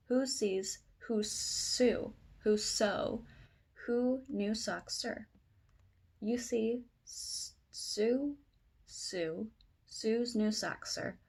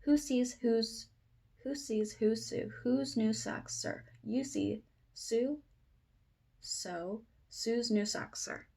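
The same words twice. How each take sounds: First: Slow, careful tongue twister; slow reading. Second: Quicker tongue twister read; faster attempt. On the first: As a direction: pick through the words one at a time. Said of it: "say this again faster". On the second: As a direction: pick up the speed through the tricky words. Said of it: "if I can say this again faster". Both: Shown as a demonstration.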